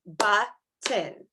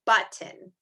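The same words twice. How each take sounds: First: "Button" split into two beats with a gap; broken into syllables. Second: Said in the usual way. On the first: Shown as a demonstration. Teacher clapping along with pre-K, "Button" in separated syllables. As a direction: clap out "Button", pausing between its two parts. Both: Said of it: "We're gonna clap out button".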